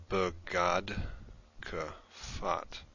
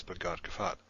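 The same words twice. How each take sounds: First: "Begad Kafat" in slow, separated chunks; slow syllable breakdown. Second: Said in the usual way. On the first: Shown as a demonstration. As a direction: pause between "Begad" and "Kafat", sounding out each part.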